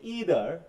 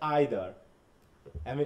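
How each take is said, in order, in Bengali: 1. শব্দটি 'ee' ধ্বনি দিয়ে শুরু হয়। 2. শব্দটি 'eye' ধ্বনি দিয়ে শুরু হয়। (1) "ইউএস বলতেছে ইদার" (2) "এটা হচ্ছে আইদার"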